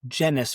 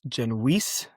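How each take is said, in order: First: The name ends rhyming with tennis. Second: The name ends rhyming with fleece. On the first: This is the form the family came to use. "migrated to being Genus, rhymes with tennis" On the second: This is the original form of the name. "originally pronounced Genoese, rhymes with fleece"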